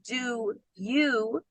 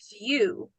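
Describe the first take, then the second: First: The two words are said separately and fully. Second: The two words run together as one unit. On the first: "Instead of saying do you" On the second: "we say do you"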